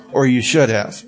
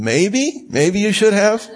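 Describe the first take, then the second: First: Should said falling and firm. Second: Maybe and should said rising, doubtful. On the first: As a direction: state "you should have" flatly, falling. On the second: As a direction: ask "maybe" and "should have" rising, unsure. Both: Shown as a demonstration. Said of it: "That's minimizing".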